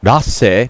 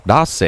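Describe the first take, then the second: First: "Rase" said with a D, like "Dase"; imitating the pronunciation. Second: "Rase" with a D, short rising "Dass"; imitating the pronunciation. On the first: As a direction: echo "Rase" as the character says it, Dase. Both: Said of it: "Did you hear how he pronounced his name?".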